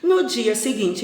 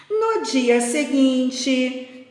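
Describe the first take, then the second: First: Said in the usual way. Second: Very slow, higher storyteller's opening; drawn-out picture-book narration; storytelling. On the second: A narrator's reading. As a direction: stretch it out to open the next scene. Resumes reading the story aloud.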